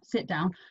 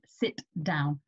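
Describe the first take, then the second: First: The t in sit is soft and barely made. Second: The t in sit is crisp and clearly made. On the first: The speaker calls it wrong. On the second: The speaker calls it right.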